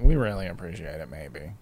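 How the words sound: It sounds half-hearted, as if barely meant.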